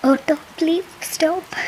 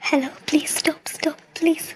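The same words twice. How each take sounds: First: Calling out. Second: Breathless whispered plea. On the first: Calling an auto at night. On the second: Begging passing vehicle to stop. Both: Acted.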